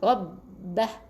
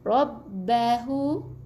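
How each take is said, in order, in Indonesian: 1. Kata ini berakhir dengan bunyi 'h' saja. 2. Kata ini berakhir dengan suku kata 'hu' penuh. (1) "kalau kita berhenti rabbah, kita matikan dengan huruf H" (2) "Asalnya ada waw kecil kalau kita sambung"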